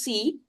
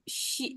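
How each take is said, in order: First: It begins with an 's' sound. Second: It begins with an 'sh' sound. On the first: The speaker calls it wrong. "wrong pronunciation of S" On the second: The speaker calls it right. "instead of she"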